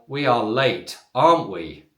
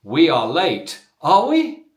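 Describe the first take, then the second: First: "aren't we" drops in pitch; falling question tag. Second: "are we" jumps up high and loud; rising question tag. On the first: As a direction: let "aren't we" fall, seeking agreement. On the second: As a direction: lift "are we" sharply into a real question. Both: Shown as a demonstration. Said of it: "using slightly different intonation in the voice".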